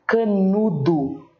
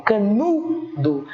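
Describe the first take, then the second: First: "canudo" slow and even, ending in a sounded DU; slow doubtful "canudo" with U at the end; final U. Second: "canudo" with a long stressed NU, then a separate weak last syllable; slow corrected "canudo", caNUUU-do. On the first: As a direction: draw out "canudo" as ca-nu-DU, as if testing it. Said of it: "pra saber se é o U". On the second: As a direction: stretch the NU of "canudo" and pause before the end. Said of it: "A sílaba tônica é a penúltima". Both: Shown as a demonstration.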